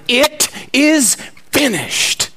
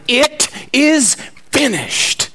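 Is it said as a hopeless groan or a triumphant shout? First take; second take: triumphant shout; triumphant shout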